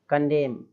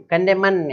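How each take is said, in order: First: "कंडेम" ending on M; correct silent N. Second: "कंडेमन" ending in a voiced -man; wrong N sounded. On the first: Shown as a demonstration. Teacher giving the corrected word, "कंडेम" with silent N. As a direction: say "कंडेम", two syllables, no N. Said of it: "ऐसे नहीं बोलना है". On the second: Teacher showing what not to say, "कंडेमन" with N sounded. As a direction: say "कंडेमन" with an extra final syllable. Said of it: "ऐसा नहीं".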